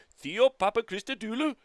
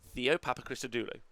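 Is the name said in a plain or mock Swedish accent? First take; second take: mock Swedish; plain. First: It is said in a mock Swedish accent. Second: It is said in his normal accent.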